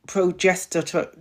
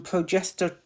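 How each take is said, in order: First: "progester-" drawn out slowly, syllable by syllable. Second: Said in the usual way. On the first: Shown as a demonstration. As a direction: ease carefully through "progester-" at half speed. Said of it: "I have to say this slow". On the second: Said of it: "it don't come out right if I say it fast".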